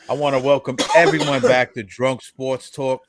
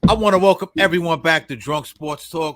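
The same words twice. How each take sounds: First: It is said with low, flat energy. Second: It is said with loud, lively energy. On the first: The speaker calls it wrong. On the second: The speaker calls it right.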